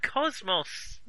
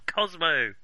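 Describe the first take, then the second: First: The final s sound is pronounced. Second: The final s sound is left silent. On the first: The speaker calls it right. "I'm Cosmos, not Cosmo" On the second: The speaker calls it wrong. "We don't pronounce the S in the end"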